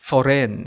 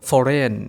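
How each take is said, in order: No difference in how they are said.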